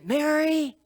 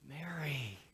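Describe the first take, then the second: First: It sounds exasperated and impatient. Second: It sounds tender and loving.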